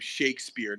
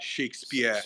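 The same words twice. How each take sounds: First: The final R is clearly pronounced. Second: The final R is dropped. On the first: The speaker calls it right. "Shakespeare made hard R's" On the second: The speaker calls it wrong.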